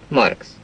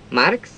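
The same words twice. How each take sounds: First: The vowel is a clear open a sound. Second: The vowel is a flattened e-like sound. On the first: The speaker calls it right. "e helyett" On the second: The speaker calls it wrong. "Például ezt mondják"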